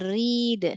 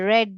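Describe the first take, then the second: First: The vowel is a long 'ee' sound. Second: The vowel is a short 'eh' sound. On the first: It is the present tense. "यहाँ पर रीड ई" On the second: It is the past tense. "और यहाँ पे रेड ए"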